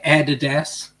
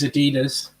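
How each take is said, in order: First: It is said in an Australian accent. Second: It is said in a non-Australian accent.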